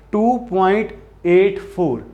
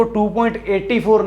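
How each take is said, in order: First: एट फ़ोर spoken as separate digits, slowly. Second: एटी said as eighty, the wrong way; wrong reading. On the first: Teacher modelling the right reading for students, digit by digit. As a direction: say एट, then फ़ोर, slowly and clearly. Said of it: "इसको कैसे pronounce करेंगे?". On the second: Teacher showing students the wrong reading, eighty. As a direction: say एटी as one number, eighty. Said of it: "नहीं कहेंगे". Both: Shown as a demonstration.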